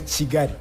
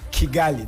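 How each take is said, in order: First: The word begins with a ch sound. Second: The word begins with a hard k sound. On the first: The speaker calls it right. "We say Chigari" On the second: The speaker calls it wrong. "you wouldn't say Kigali. That's not the way we call Kigali"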